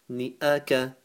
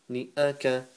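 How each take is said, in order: The two takes are said the same way.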